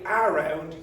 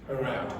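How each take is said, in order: First: Both syllables get equal, full stress. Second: The first vowel is weak and reduced. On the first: The speaker calls it wrong. "you sound too flat in English" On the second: The speaker calls it right. "So this will become this sound. So you get around"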